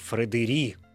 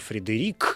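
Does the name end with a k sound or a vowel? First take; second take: vowel; k sound. First: The name ends with a vowel sound. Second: The name ends with a k sound. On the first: "а просто Фредери" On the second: "вот с «к» на конце"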